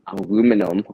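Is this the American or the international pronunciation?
American. It is said the American way. "depending how you say it"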